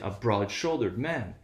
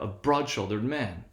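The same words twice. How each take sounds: First: The main stress falls on shouldered, not broad. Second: The main stress falls on broad, not shouldered. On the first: The speaker calls it wrong. "It would be extremely unnatural to say" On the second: The speaker calls it right. "we want to avoid the stress clash between shouldered and man"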